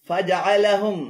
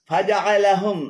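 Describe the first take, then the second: Both takes have the same delivery.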